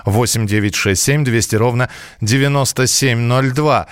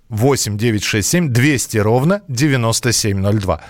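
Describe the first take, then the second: No difference in how they are said.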